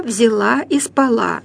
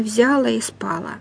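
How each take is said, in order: First: "взяла" and "спала" stressed on the last syllable; correct stress. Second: "взяла" and "спала" wrongly stressed on the first syllable. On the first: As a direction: say "взяла" as взя-ЛА, "спала" as спа-ЛА. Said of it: "и нужно говорить". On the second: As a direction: say "взяла" as ВЗЯ-ла, "спала" as СПА-ла. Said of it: "Ну, не". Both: Shown as a demonstration.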